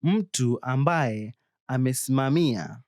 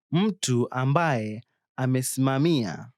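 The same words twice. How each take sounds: The two takes are said the same way.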